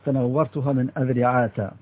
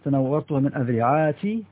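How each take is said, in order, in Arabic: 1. تنتهي الكلمة الأخيرة بـ -a بدون نون في الآخر. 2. تنتهي الكلمة الأخيرة بـ -i بدون نون في الآخر. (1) "وبالفتح اللي هو إعراب الممنوع من الصرف" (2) "ومن غير تنوين"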